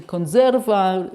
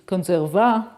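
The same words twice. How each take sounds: First: Conserva said as con-SER-va, stress on the middle syllable; correct Italian stress. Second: Conserva said as CON-ser-va, stress wrongly on the first syllable; dyslexic misreading. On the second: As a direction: demonstrate the reading error in conserva, stressing CON. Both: Shown as a demonstration. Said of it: "instead of".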